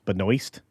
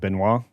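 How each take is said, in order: First: The name is said with an S sound. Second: The name is said without an S sound. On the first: The speaker calls it right. "I'm supposed to use the S there" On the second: The speaker calls it wrong. "I would pronounce it Benoit"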